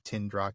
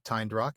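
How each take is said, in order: First: The first syllable has a short vowel. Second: The first syllable has a long vowel. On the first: The speaker calls it wrong. "instead of Tindrock" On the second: The speaker calls it right. "we're right to pronounce it Tyndrock"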